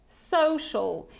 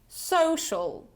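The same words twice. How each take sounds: The two takes are said the same way.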